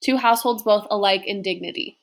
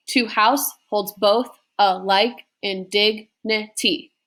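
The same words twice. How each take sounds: First: "To house holds both alike in dignity" run together, still stressing every second syllable; flowing iambic stress. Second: "To house holds both alike in dignity" slowly, foot by foot, every second syllable stressed; slow scansion with small gaps between the iambs; measured iambic beat. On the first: Teacher repeats the line for students, joined up with the stress pattern kept. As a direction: read the line connected, keeping the iambic pulse. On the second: Teacher shows five iambs in one line, read slowly in beats.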